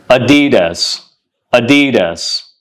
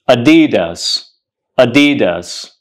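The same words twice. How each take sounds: The two takes are said the same way.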